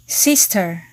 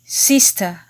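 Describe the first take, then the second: First: SISTER ending in a full "ter"; American sounded R. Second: SISTER ending in "tuh", no R; British silent R. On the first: Teacher asks learners to listen carefully, American R-ful "sister". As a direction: say sister the American way, final R pronounced. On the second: Teacher asks learners to listen carefully, British non-rhotic "sister". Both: Shown as a demonstration.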